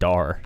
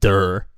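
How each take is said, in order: First: The vowel sounds like the one in car. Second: The vowel sounds like the one in fur. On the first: The speaker calls it right. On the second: The speaker calls it wrong.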